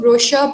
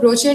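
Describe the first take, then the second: First: The middle consonant is an sh sound. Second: The middle consonant is a ch sound. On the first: The speaker calls it right. "श की आवाज आएगी उसमें" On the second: The speaker calls it wrong. "उसको ब्रोचर नहीं"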